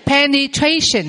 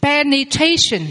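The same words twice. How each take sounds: First: Said in the usual way. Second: Slow Penetration, syllable by syllable; slow model word. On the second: Shown as a demonstration. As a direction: spell it out slowly: Penetration. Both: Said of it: "Quý vị đọc vào phần từ vựng".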